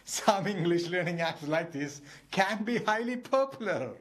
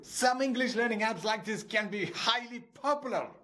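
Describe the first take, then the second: First: It is said while laughing, amused. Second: It is shouted in an angry, exasperated voice.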